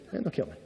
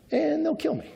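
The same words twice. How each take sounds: First: Low, soft, sinking repeat; quiet dread. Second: High, panicked squeak of fear; panicky fear. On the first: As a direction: let the fear drop into a low hush. Abram repeats the fear quietly. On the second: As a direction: blurt it out in a sudden high panic. Abram panics about the Egyptians. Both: Retold or imitated.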